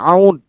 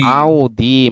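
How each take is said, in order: First: The word ends on a consonant. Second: The word ends with an i vowel. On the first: The speaker calls it wrong. "jangan dibaca aud" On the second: The speaker calls it right. "tapi dibacanya"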